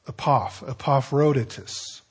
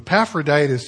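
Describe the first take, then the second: First: The name is said the less familiar way. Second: The name is said the commonly heard way. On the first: The speaker calls it right. "It's probably Epaphroditus" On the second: The speaker calls it wrong. "the way that you've, if you've heard that name at all, that's probably how you've heard it"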